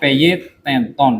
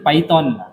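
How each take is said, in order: First: The word is sounded out as it is spelled. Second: The word is said with English-style vowels. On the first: This is how the word is written. "Tulisannya Python ya" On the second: This is how the word is actually read. "Kalau dibaca sih Python"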